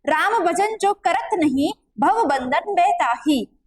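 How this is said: The pause comes after the word nahin.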